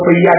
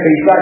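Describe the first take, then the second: First: The middle consonant is a y sound. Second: The middle consonant is a clear s sound. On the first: This is how the Vapi region says it. "બાપી બાજુ જશો તો પૈયા કહેશે એને" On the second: This is how the Palanpur region says it. "Palanpur બાજુ પૈસા ને પૈસા જ કહેવાય"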